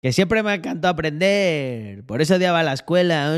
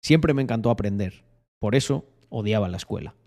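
First: Different silly voice. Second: Restrained announcer read; low-key, lightly voiced announcer; locutor voice. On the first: Pretend. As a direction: drag it out in a put-on voice. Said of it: "Puedo poner diferentes, diferentes voces". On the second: Shown as a demonstration. Streamer shows how the clip would sound, locutor voice. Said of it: "pero sería algo así como".

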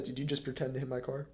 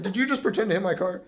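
First: Lower, softer weary question; weary and understated; tired deadpan. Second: Louder mock-serious question; imitated driver, played up loud; mocking retelling. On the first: Retold or imitated. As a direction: imitate a worn-out driver asking quietly. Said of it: "he was so tired". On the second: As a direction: repeat his dumb question louder, for laughs. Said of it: "he said the dumbest shit ever".

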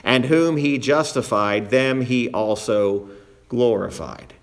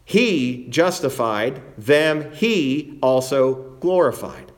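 First: Said in the usual way. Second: Slow, each "he" picked out and stretched; stress on HE. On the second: Shown as a demonstration. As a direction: lean on both "he"s, taking your time. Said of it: "notice the use of that personal pronoun he".

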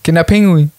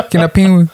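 First: Kinderpinguin with a clear final n; plain Kinderpinguin with its n. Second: Kinderpinguin said as Kinderpingui, final n dropped; without the N. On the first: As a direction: say Kinderpinguin ending on the N sound. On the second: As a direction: clip the end of Kinderpinguin to a bare i. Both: Shown as a demonstration. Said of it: "Das N weglassen".

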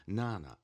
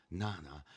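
First: Louder call of the name Nana. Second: Said in the usual way. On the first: A narrator's reading. (głośniejsze wołanie „Nana”) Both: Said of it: "jeszcze głośniej".

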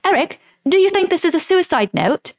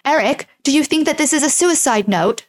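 First: Higher-pitched put-on English accent. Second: Badly faked German accent, a bit higher; terrible German accent. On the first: Host voicing Monica asking Eric about the note, English accent. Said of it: "I can do an English accent". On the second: Host voicing Monica asking Eric about the note, terrible German accent. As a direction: attempt a clumsy German accent. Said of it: "that was a terrible German accent".

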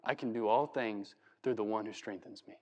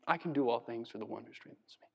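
First: Low, soft, humble voice; humble chained Paul. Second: Lower, much softer, hushed; quiet humble awe. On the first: Paul in prison dictating the verse, soft and humble. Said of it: "He's telling this". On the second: Paul after shipwreck and beatings, hushed and humble. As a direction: breathe it out like a battered survivor. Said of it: "I died, came back to life". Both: Pretend.

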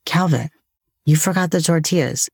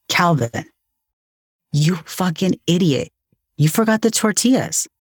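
First: Gentle reminder to yourself after a sigh; compassionate self-talk. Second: Exasperated self-berating, pitched higher; self-scolding. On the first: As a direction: restate the slip kindly, without the scolding. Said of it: "compassionate tone of voice towards myself". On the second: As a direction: retell a mild scolding of yourself, voice rising. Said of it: "I said to myself". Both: Retold or imitated.

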